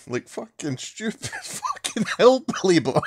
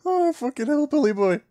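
First: Higher, laughing through the insult; can't stop cackling while mocking. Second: Mocking squeal. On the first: Real, not acted. Laughing at the hillbilly Captain America. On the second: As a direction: pitch "Oh, fucking hillbilly boy" way up like a jeer. Repeats the mockery after laughing.

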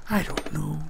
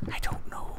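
First: Said in the usual way. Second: Very soft, voiceless whisper. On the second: Real, not acted. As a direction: whisper it under your breath. Repeats the line in whisper.

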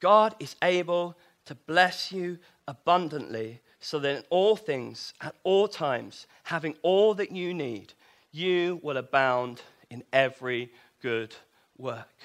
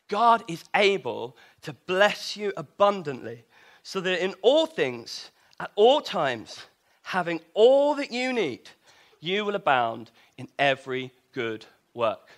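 First: Scripture reading. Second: Said in the usual way. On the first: Shown as a demonstration. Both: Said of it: "let's carry on reading".

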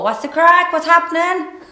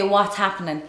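First: Loud, high-pitched exaggerated Cork accent. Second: Said in the usual way. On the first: Shown as a demonstration. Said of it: "So you need to go". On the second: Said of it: "you need to say".

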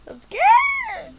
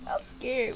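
First: Very high loud frightened cry; scared shriek. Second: Said in the usual way. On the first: Real, not acted. Player terrified on the track, high scared shriek.

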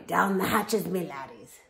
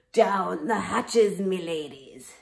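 First: Loud pirate call, corrected; pirate yell. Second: Loud, slow pirate bellow; pirate yell. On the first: Captain yelling at his crew, loud pirate call. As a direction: bellow it again, fixing the word. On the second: Captain yelling at his crew, loud pirate bellow. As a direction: roar it across the table. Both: Acted. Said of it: "pounded his fist on the table and yelled".

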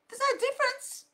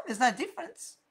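First: NO lifted much higher; high insistent repeat; emphatic high repeat. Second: Said in the usual way. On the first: Shown as a demonstration.

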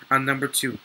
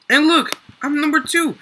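First: Said in the usual way. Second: High and loud, thrilled at ranking up; proud, pitched up; excited brag. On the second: Real, not acted. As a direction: announce it with real excitement. Jumps to second place.

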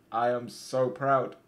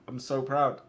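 First: "I am so proud" slowed, each word separate; emphatic pride. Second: Said in the usual way. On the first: Real, not acted. Player praises his boys, "I am so proud" slow and emphatic. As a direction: spell out "I am so proud" slowly for emphasis.

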